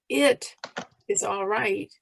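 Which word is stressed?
It. The stress falls on the word it. "emphasize each word separately"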